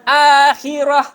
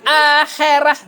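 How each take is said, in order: First: The final vowel is a clear 'a' sound. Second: The final vowel is shifted toward an 'e' sound. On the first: The speaker calls it right. "Orang akhi lah akhirah" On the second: The speaker calls it wrong. "bukan akhirah"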